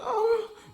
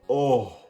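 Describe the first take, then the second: First: It is said in a higher-pitched voice. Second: It is said in a put-on deep voice.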